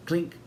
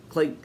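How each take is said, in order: Both takes have the same delivery.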